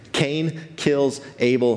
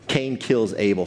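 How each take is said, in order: First: "Cain kills Abel" drawn out slowly, each word weighted; slow it down to land "kills"; slow emphatic retelling. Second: Said in the usual way. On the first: Shown as a demonstration.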